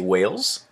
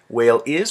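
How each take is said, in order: First: The words are contracted into one. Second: Both words are said in full. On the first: "we say whales" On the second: "When we say whale is"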